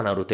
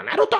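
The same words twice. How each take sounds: First: Said in the usual way. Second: "Naruto" with the stress thrown on the last syllable; Japanese final stress. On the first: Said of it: "ele não fala Naruto". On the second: Shown as a demonstration. Explaining anime Japanese, "Naruto" stressed on the last syllable. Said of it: "ele é sempre oxítono".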